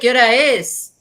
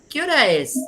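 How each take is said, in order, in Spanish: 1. Se pregunta con un tono enojado y de reproche. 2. Se pregunta con un tono sencillo y neutral.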